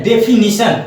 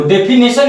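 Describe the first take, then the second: First: डेफिनेशन said "de-fi-NI-shan"; "ni" as third syllable of डेफिनेशन; correct pronunciation. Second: डेफिनेशन said "de-fi-NE-shan"; "ne" as third syllable of डेफिनेशन; mispronunciation. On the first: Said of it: "सही सही बोलोगे". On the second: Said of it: "ये आपका गलत हो जाता है". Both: Shown as a demonstration.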